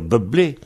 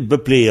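First: The middle consonant is a soft b. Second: The middle consonant is a hard p. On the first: This is another acceptable form. "On pourrait dire Beblé" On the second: This is the regional form. "en Vendée, ça durcit"

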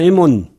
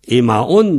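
First: The word is said quickly, with a shortened form. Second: The word is said in full, with all syllables.

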